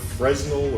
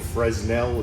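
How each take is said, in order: First: The name is pronounced the English way. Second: The name is pronounced the French way.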